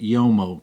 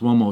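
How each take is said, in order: First: The word begins with a 'yo' sound. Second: The word begins with an 'oo' sound. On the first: The speaker calls it wrong. "I used to pronounce it Yomo" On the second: The speaker calls it right. "but it's pronounced Uomo"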